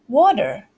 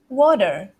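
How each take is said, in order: First: It has a soft T and an R sound. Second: It has a soft T and an R sound.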